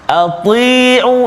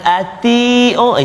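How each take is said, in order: First: The t is heavy, with the tongue raised. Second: The t is thin, with the tongue flat. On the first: The speaker calls it right. "sifat dia tebal" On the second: The speaker calls it wrong.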